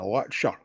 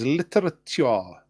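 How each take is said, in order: First: The T sounds are dropped and the word is shortened. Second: Every T sound in the word is clearly pronounced. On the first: The speaker is talking normally. "instead of just saying" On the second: The speaker is being posh. "I'm pronouncing the T's"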